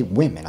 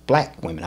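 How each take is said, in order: First: Said in the usual way. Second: "black" set out firmly before "women"; emphasize the word "black"; stress on BLACK. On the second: Shown as a demonstration. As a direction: land on "black", let "women" drop. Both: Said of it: "put the emphasis on that".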